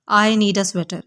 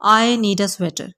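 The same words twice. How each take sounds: The two takes are said the same way.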